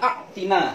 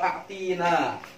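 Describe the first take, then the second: First: The vowel after a't is kept short. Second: The vowel after a't is drawn out long. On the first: It addresses a male. The speaker calls it right. "Yang benar adalah a'tina" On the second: It addresses a female. The speaker calls it wrong. "salah kalau a'tina"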